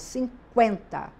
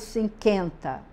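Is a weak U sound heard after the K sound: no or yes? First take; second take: yes; no. First: A weak U sound follows the K. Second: No U sound is heard after the K. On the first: The speaker calls it right. "eu falo cinquenta. Isso significa que eu pronuncio um U fraquinho" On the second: The speaker calls it wrong. "Eu não falo cinquenta"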